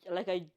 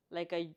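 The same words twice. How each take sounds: The two takes are said the same way.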